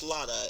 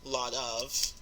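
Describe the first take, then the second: First: The of shrinks to a short uh sound. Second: The of is said as a full word.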